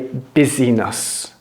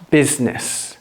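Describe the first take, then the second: First: The middle vowel is pronounced in full. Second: The middle vowel is dropped entirely. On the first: The speaker calls it wrong. "Don't say busyness" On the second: The speaker calls it right. "I take away an I from business"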